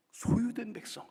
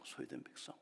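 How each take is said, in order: First: Higher and louder; proclaimed. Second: Much softer echo; softly echoed. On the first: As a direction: ring it out. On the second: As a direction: let it fall to a hush. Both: Shown as a demonstration.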